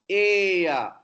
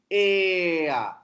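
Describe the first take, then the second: No difference in how they are said.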